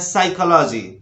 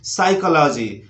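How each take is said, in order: First: The word starts with an s sound. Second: The word starts with an s sound.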